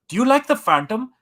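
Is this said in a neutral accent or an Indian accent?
Indian. It is said in an imitated Indian accent.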